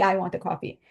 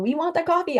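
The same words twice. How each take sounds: First: "I want the coffee" said lower, leaning on "I"; stress on I. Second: "We want the coffee" said higher, leaning on "We"; stress on we. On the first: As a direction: drop down and own it with "I". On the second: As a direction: lift "We" up high as the group. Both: Shown as a demonstration. We versus I contrast.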